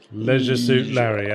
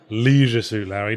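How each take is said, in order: First: The first vowel of leisure is short. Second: The first vowel of leisure is long. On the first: The speaker calls it right. "I prefer the shorter vowel sounds" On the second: The speaker calls it wrong. "the original American pronunciation"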